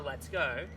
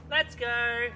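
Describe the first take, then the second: First: Said in the usual way. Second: Lifted gentle "Let's go"; gentle high call. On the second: Shown as a demonstration. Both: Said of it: "just gentle, like that".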